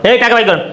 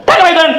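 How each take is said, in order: First: Curt order to pay; contained angry demand; stern demand. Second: Higher-pitched yelled demand; escalated shout for money; angry yelling. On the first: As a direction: order it firmly without raising the voice. Money demand before the yelled repeat. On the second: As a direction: burst out with the order. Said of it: "তুমি আর চিল্লাচিল্লি করো না". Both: Acted.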